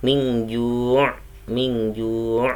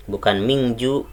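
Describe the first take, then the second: First: Mingju keeping the ain trace; correct pronunciation. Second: Mingju with the ain dropped; wrong pronunciation. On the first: Teacher showing the correct mingju, ain kept. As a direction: say mingju with the ain still heard. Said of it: "seperti itu". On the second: Teacher showing the wrong mingju without the ain. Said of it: "salah kalau mingju". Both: Shown as a demonstration.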